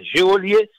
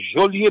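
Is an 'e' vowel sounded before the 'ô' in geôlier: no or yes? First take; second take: yes; no. First: An extra 'e' vowel is sounded before the 'ô'. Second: No extra 'e' vowel is sounded before the 'ô'. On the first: The speaker calls it wrong. "c'est pas geôlier" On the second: The speaker calls it right. "c'est geôlier"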